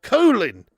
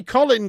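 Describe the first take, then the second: First: "Colin" with a long o, COH-lin, loud; American Colin. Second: "Colin" with a short o, COLL-in; British Colin. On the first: Retold or imitated. Streamer mocking the American way, "Colin" as COH-lin. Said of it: "They say". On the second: Shown as a demonstration. Streamer showing the name they don't say, "Colin" as COLL-in. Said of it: "They don't say Colin".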